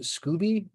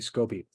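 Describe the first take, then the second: First: The first vowel sounds like 'oo' in Scooby-Doo. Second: The first vowel sounds like 'oh', not 'oo'. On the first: This is how the organization itself says it. "I think they pronounce it Scooby" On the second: This avoids sounding like a cartoon character. "so I say Scoby"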